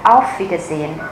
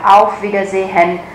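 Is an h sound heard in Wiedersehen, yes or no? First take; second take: no; yes. First: No h sound is pronounced in the middle. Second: An h sound is pronounced in the middle. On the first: The speaker calls it right. "các bạn sẽ chỉ nghe thấy là" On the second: The speaker calls it wrong. "mình không đọc là Auf Wiedersehen bởi vì âm H"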